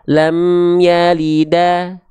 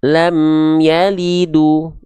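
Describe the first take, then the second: First: The last word ends with an 'a' vowel. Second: The last word ends with a 'u' vowel. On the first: "nggak dibaca lam yalida" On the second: "ataupun lam yalidu. Nggak"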